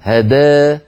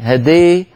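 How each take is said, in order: First: The long a is only slightly tilted toward i. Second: The long a is strongly tilted toward i. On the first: "يقرأها ورش بالإمالة الصغرى" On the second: "هذا صارت إمالة كبرى"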